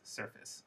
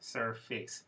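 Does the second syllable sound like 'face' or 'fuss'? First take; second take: fuss; face. First: The second syllable is reduced to 'fuss'. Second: The second syllable has a full 'face' vowel. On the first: The speaker calls it right. "face, surface" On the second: The speaker calls it wrong. "you might think that this word is surface"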